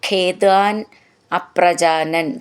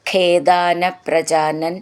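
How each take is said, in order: First: The words are said as separate words. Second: The words are linked together in one run.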